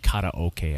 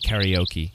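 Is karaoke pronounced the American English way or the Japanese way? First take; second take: Japanese; American English. First: It is said with a Japanese-style pronunciation. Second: It is said with an American English pronunciation. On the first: The speaker calls it right. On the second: The speaker calls it wrong.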